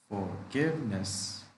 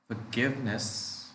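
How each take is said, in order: Both takes have the same delivery.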